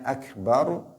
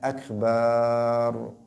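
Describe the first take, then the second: First: The vowel after the b is short. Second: The vowel after the b is drawn out long. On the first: The speaker calls it right. "Yang harusnya akbar" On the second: The speaker calls it wrong. "dia membacanya akbar... memanjangkan huruf ba"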